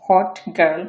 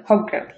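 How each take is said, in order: First: Said in the usual way. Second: Put-on "hot girl" as hog-girl, no T heard; glottal stop. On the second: Shown as a demonstration. Teacher contrasts takes, "hot girl" with swallowed T. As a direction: run "hot girl" together with a throat catch. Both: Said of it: "একটা ধাক্কা খেয়ে পরে".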